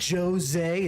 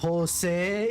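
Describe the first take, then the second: First: The name is said with an English-style pronunciation. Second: The name is said with a Spanish-style pronunciation. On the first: This is how the game characters said it. The speaker calls it wrong. "they said Jose" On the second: This is how the name should be said. The speaker calls it right. "instead of Jose"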